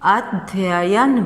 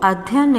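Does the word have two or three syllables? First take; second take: three; two. First: The word is said with three syllables, including ya. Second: The word is said with two syllables, missing one ya. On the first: The speaker calls it right. "अध्ययन बोलते हैं" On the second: The speaker calls it wrong. "वो अध्ययन नहीं बोलते हैं"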